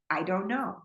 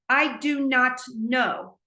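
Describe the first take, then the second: First: The words are joined with a contraction. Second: Each word is said fully and separately. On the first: The speaker calls it right. "We say" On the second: The speaker calls it wrong. "we don't say that"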